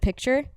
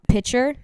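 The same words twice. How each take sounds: First: The k sound is clearly pronounced. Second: The k sound is dropped, like pitcher. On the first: "instead of picture" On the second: "a good one is um picture instead of"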